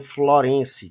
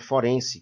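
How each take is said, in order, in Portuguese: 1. A palavra começa com o som de 'fl'. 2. A palavra começa com o som de 'f' simples. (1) "as pessoas se confundirem e pronunciarem Florense" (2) "o correto é forense"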